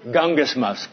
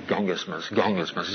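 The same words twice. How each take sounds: First: Said in the usual way. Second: Gungismus growled low and much softer, like a grumble; grumbled word. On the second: Shown as a demonstration. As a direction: mutter Gungismus under your breath like a complaint. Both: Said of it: "the Greek word for grumble sounds like grumble".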